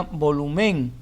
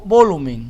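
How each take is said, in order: First: Volumen with ME stressed; wrong stress on ME. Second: Volumen said louder, LU stressed; right stress on LU. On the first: Teacher showing wrong stress on ME. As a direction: lean on ME in volumen. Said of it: "Si fuese en me". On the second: Teacher giving right stress on LU. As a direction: lean on LU in volumen. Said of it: "la palabra es volumen". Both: Shown as a demonstration.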